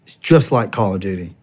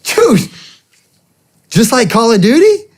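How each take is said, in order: First: Said in the usual way. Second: Much higher, thrilled incredulous question; excited disbelief. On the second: Retold or imitated. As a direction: echo it back, amazed and eager. Incredulous echo of recruiter's pitch.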